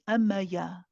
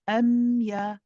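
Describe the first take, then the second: First: An extra vowel is inserted between m and ya. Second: The m flows smoothly into ya without a vowel. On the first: The speaker calls it wrong. "We do not say amaya" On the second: The speaker calls it right. "smoothly to the ya"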